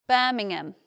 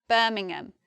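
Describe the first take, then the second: No difference in how they are said.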